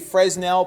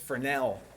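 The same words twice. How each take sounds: First: The S sound is pronounced. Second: The S sound is left out. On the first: The speaker calls it wrong. "If you say Fresnel, people will laugh" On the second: The speaker calls it right. "The S is silent. Don't say S. It's Fresnel"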